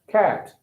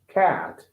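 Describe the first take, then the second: First: The vowel is short, in a British accent. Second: The vowel is long, in an American accent. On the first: "British English, they're gonna say cat, right?" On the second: "American English say cat, cat. Like more long"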